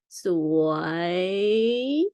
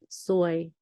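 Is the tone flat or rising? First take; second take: rising; flat. First: The pitch dips and then rises. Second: The pitch stays level throughout. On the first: It means beautiful. "it rising tone. ... you go down and then you change your mind in the middle, you put it up" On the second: It means bad luck. "it middle tone, just go flat"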